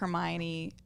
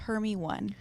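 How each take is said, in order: First: The name is said with its usual four syllables. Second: The name is said as 'Hermy' plus 'one'. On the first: The speaker calls it right. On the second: The speaker calls it wrong.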